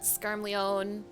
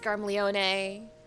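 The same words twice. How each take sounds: First: The name is said the old misread way. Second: The name is said the voiced way. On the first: This is how the name was long read silently. The speaker calls it wrong. "it's not" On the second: This is how the name is spoken in the game. The speaker calls it right.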